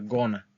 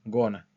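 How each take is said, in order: First: It is shortened and blended into one word. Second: It is shortened and blended into one word.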